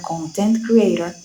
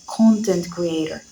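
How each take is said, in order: First: Content is stressed on its second syllable. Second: Content is stressed on its first syllable. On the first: A creator who is happy. "they're just saying that they are a happy creator" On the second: Someone who makes media material. "someone who creates content is a content creator"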